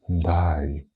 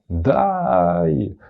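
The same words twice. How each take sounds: First: The word is said in a sad tone. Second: The word is said in a joyful tone. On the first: The speaker is in despair. "Або ти можеш сказати у відчаї, коли тобі сумно" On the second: The speaker is happy. "ти можеш сказати радісно «дай»"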